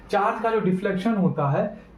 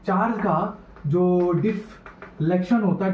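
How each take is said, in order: First: Said in the usual way. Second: Slow, drawn-out dictation for note-takers; measured teacher dictating at writing speed. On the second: Real, not acted. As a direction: spell it out slowly, phrase by phrase. Slowed repeat for students writing.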